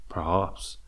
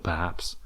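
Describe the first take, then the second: First: "perhaps" with a broad ah, "per-hahps"; Tasmanian-style pronunciation. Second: Said in the usual way. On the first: Shown as a demonstration. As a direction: swap the short a in "perhaps" for an open ah. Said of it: "all of a sudden I say perhaps". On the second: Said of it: "instead of perhaps".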